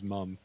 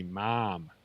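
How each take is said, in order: First: "mom" said as Canadian "mum". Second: "mom" with an open, drawn "ah" vowel; Southern US "mom". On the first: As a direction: say "mom" with a short "uh" vowel, like "mum". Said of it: "That's a Canadianism". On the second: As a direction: say "mom" as "mahm", American style. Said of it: "down here it'd be mom". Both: Shown as a demonstration.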